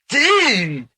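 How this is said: It is said as a casual, friendly greeting. Hello there. "which is a greeting"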